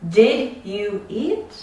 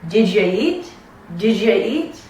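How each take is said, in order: First: Said in the usual way. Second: "Did you" run together as "didja", rising on "eat"; "Did you" linked with a J sound; native linked speech. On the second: Shown as a demonstration. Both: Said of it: "But as a native speaker".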